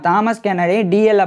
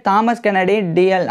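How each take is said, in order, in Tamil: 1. குடும்பப் பெயர் சுருக்கமாக 'dee-ell' என்று சொல்லப்படுகிறது. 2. குடும்பப் பெயர் சுருக்கமாக 'dee-ell' என்று சொல்லப்படுகிறது.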